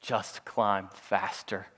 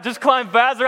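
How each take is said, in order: First: Low, slow, soft deadpan; exaggerated calm. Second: High, loud mocking repeat; incredulous echo. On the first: Brother looking down at a panicked climber, mock calm. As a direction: imitate someone utterly unbothered, taking all the time in the world. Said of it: "in the most calm voice". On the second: Panicked climber throwing his brother's advice back, incredulous.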